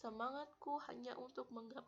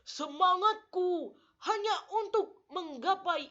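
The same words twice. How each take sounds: First: It is said weakly with limp, low energy. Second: It is said strongly with energetic emphasis. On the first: The speaker calls it wrong. "jangan lemas" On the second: The speaker calls it right. "intonasi harus kuat"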